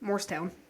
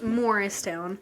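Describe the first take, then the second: First: The name is said fast with syllables run together. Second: The name is said carefully with every syllable clear. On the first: "if you say it fast" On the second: "because it's Morristown"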